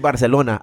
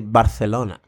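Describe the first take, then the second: First: It is said in a Mexican Spanish accent. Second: It is said in a Spain Spanish accent. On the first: This is how the speaker himself says it. "I say Barcelona" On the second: This is how the speaker does not say it. "I don't say Barcelona"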